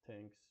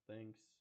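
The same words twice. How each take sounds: First: The word starts with a harder t-like sound. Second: The word starts with a soft th sound. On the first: "pronounced more like the t sound" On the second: "We say"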